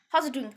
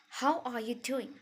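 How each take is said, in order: First: The words are slurred together and unclear. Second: Each word is pronounced clearly and separately. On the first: The speaker calls it wrong. "It's not like that" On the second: The speaker calls it right. "Like it needs to be clear"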